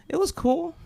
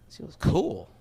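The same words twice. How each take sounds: First: Imitated higher, noncommittal reply with a rising end; noncommittal answer. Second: Acted inward echo with a falling end; brooding echo. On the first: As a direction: mimic her giving a neutral verdict. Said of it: "The most neutral answer". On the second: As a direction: replay her answer to yourself, unconvinced. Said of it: "I'm not thinking to myself".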